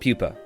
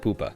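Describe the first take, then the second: First: The first syllable sounds like 'pew'. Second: The first syllable sounds like 'poo'. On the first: This is the show's actual title. "I know it's called Pupa" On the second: This is a joke that the show is bad. "I call it Poopa. Because it's shit"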